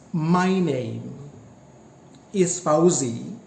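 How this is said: It has one pause after the word name. It is two utterances. "there is a pause, there is a break between my name is Fauzi"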